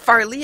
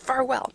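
First: The name is said as Farley. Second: The name is said as Farwell. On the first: The speaker calls it wrong. "it's not Farley" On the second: The speaker calls it right. "it's Farwell"

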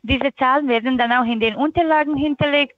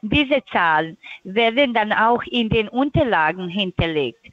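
First: The sentence is spoken quickly. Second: The sentence is spoken slowly. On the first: The speaker calls it wrong. "Das war viel zu schnell" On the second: The speaker calls it right. "Ich gehe langsam"

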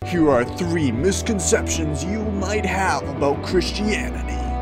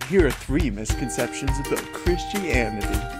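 First: The tone is serious and somewhat harsh. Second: The tone is upbeat and overly cheerful.

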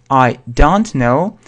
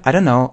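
First: The phrase is said slowly and carefully. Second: The phrase is said quickly. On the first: "если немедленно мы произносим, говорим" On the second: "А если быстро"

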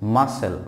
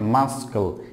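First: The c is silent. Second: The c is sounded as a k. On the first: The speaker calls it right. "it's muscle" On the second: The speaker calls it wrong. "So this word is not muscle"

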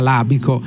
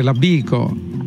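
First: The stress is on the first syllable. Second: The stress is on the second syllable. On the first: "credo che la pronuncia esatta sia labico" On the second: "però qualcuno dice labico"

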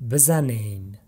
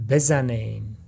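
Both takes have the same delivery.

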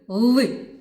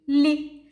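First: The consonant is pronounced hard, not palatalized. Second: The consonant is pronounced soft, palatalized. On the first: "у нас вимовляємо звук ли" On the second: "А можна сказати лі"

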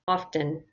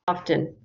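First: The T sound is pronounced very softly. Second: The same.

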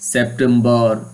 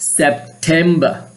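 First: The last syllable sounds like 'bar'. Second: The last syllable sounds like 'ber'. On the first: The speaker calls it wrong. "It's wrong, এটা ভুল" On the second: The speaker calls it right. "ঠিক আমি যেভাবে উচ্চারণ করছি"

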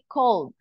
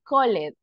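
First: The ending is a plain D sound. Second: The ending is an extra syllable. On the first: The speaker calls it right. "We say called" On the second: The speaker calls it wrong. "we don't say call it"

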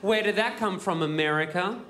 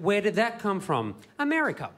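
First: The voice rises on 'America'. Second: The voice falls on 'America'. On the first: The speaker is asking whether it came from America. The speaker calls it wrong. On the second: The speaker is stating that it came from America. The speaker calls it right.

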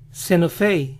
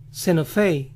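The two takes are said the same way.

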